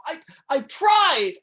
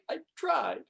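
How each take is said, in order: First: High, loud, drawn-out cry; anguished shout, stretched out slowly. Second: High but no longer shouted; pained, raised pitch at ordinary volume; subsiding anguish. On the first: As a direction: burst out in desperate protest. Anguished protest of failed disciple. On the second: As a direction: let the outburst fall away in defeat. Same protest, subsiding after outburst. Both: Acted.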